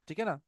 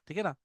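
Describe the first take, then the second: Both takes have the same delivery.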